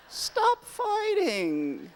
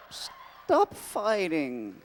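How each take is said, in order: First: Much higher, laughing, drawn out; high laughing plea. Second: Slow, drawn-out whiny plea; pleading Joxer. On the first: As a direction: squeal it with a laugh. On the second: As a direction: plead like a hapless sidekick. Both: Acted.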